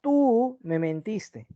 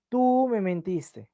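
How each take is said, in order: First: Slow, "tú" hit hard, "tú me mentiste"; stress on tú. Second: Slow "Tú me mentiste" leaning on "tú"; stress on tú. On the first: Teacher showing emphasis on "tú" in slow stress. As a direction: accuse with weight on "tú". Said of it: "con mayúscula". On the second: Teacher repeating the stressed "tú" example. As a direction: point the blame with "tú". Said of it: "ahí el tú le estoy dando mayor énfasis". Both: Shown as a demonstration.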